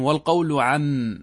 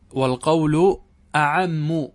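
First: عم starting straight on the ayn, drawn out slowly; slow citation, عم without its opening glottal stop; hamza dropped. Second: Slow, deliberate أعم with the hamza sounded first; hamza restored. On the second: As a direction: say أعم with an opening glottal stop. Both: Shown as a demonstration. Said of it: "اللهم أنه حذف الهمزة".

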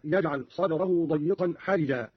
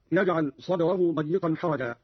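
First: حرجا with i after r; kasra on ra. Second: Said in the usual way. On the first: Shown as a demonstration. Teacher shows Qalun's reading, حرجا pronounced harijan. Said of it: "بكسر الراء هكذا". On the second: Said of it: "قرأ قالون بكسر الراء".

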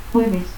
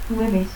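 First: Said in the usual way. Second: Jueves as "hueves"; aspirated J. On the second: Shown as a demonstration. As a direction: soften the J of Jueves to a breath. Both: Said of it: "el fonema X se aspira".

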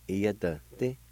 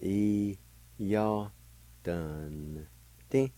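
First: "iya, dun, ti" run together as one word; joined-up pronunciation. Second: "E, ya, dun, di" each held apart; syllable by syllable. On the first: Teacher putting the word together for learners, "iya, dun, ti" joined up. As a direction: say "iya, dun, ti" without long gaps. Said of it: "pronounce the N sound with the D V like this". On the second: Teacher showing N joined to D V, "E, ya, dun, di" slowly broken up. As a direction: sound out "E, ya, dun, di" piece by piece. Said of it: "You can pronounce the N sound with the D V like this". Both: Shown as a demonstration.

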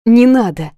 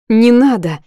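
First: Louder stressed plea, NE hit hard; desperate cry. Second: Sharp pleading cry, voice rising; loud tearful protest. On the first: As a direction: stress the first word, desperate. Repeated protest, more desperate. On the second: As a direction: push back hard through tears. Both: A narrator's reading.

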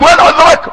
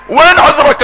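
First: Higher, a touch louder demanding question; mock divine challenge. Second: Said in the usual way. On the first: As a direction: ask "وين عذرك؟" as God challenging the servant, raised pitch. (سؤال مطالب بنبرة أعلى قليلاً) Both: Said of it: "الله يقول لك".

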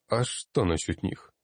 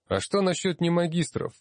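First: Mildly baffled question back; uncomprehending, lightly frowning reply; puzzled. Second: High, insistent challenge from the floor; raised voice. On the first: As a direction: ask it back, not understanding, near your usual pitch. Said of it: "непонимающе нахмурился тот". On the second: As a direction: speak up sharply with a much higher pitch. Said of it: "повысив голос". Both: A narrator's reading.

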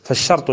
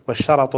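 First: فالشرط as "fash-shart", ra without vowel; فالشرط pronounced "shart"; sukun on the ra. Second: والشرط as "wash-sharat", ra with fatha; والشرط pronounced "sharat". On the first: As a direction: close the ra straight onto the ta in فالشرط. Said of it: "بسكون الراء". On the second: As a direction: put a short "a" after the ra in والشرط. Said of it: "بفتحها". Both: Shown as a demonstration.

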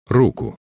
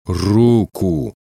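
First: Short, high order; commanding. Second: Drawn-out, insistent order; commanding. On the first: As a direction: order it briefly, pitched up. (короткий приказ, повыше) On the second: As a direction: repeat the order firmly, stretching the word. (настойчивый, протяжный приказ) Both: A narrator's reading. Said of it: "скомандовал снова Герман".

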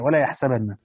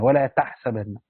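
First: يحسبن said with a clear ya, yahsabanna; the others' reading with ya. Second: تحسبن said with a clear ta, tahsabanna; Hamza's reading with ta. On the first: Teacher reciting the majority reading for students, clear ya in يحسبن. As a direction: read ولا يحسبن with the ya sound, third person. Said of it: "وقرأ الآخرون بالياء". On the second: Teacher reciting Hamza's reading for students, clear ta in تحسبن. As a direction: read ولا تحسبن with the ta sound, second person. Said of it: "قرأ حمزة هذا والذي بعده بالتاء فيهما". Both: Shown as a demonstration.

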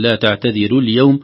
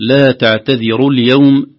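First: "تعتذروا" with a light, thin ر; thinned ra. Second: Loud, slow "تعتذروا" with a full, heavy ر. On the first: Teacher shows the mistake to avoid, thinned ر. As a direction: wrongly lighten the ر of "تعتذروا" after the kasra. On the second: Teacher models the correct recitation, heavy ر. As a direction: thicken the ر in "تعتذروا". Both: Shown as a demonstration. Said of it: "ترقق لكن حقها تفخيم".

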